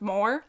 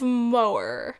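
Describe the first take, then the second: First: The H sound in the middle is barely heard. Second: The H sound in the middle is clearly exaggerated. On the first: The speaker calls it wrong. "I always just want to say Cliffs of Moher" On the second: The speaker calls it right. "I think that's how you pronounce it"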